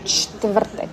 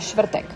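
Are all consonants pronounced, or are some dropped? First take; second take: all pronounced; some dropped. First: Every consonant is pronounced in full. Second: Some consonants are dropped, making it simpler. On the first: This is the full standard form. "en vez de" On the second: This is a common, easier everyday form. "conozco muchos checos que dicen"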